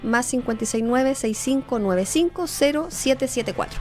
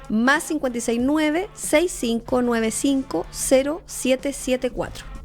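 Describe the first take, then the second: First: The number is read at a normal pace. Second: The number is read more slowly.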